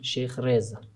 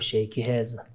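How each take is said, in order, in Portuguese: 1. O nome é dito com a pronúncia original, não portuguesa. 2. O nome é dito com pronúncia portuguesa.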